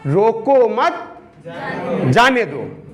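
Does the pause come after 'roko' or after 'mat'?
after mat. The pause comes right after 'mat'.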